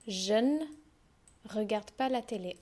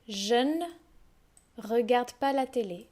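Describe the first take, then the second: First: The ne is shortened to a bare n sound. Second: The ne is shortened to a bare n sound.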